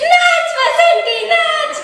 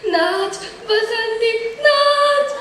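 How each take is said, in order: First: It is said while laughing. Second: It is said in a frightened way.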